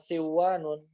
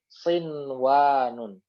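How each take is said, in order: First: The n merges into the following w sound. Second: The n is pronounced clearly before the w. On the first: The speaker calls it wrong. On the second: The speaker calls it right.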